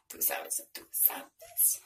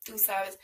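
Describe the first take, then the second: First: "tú sabes" repeated, dropping to a breathy whisper; fading whisper. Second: Said in the usual way. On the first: Shown as a demonstration. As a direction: let the catchphrase fade into a whisper. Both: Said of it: "repeats catchphrase, fading out".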